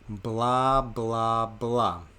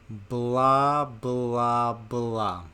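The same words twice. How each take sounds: First: It is said a little slowly. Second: It is said more slowly still. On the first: "A little bit slower" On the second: "Even slower"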